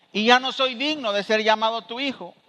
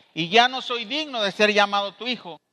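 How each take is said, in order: The two takes are said the same way.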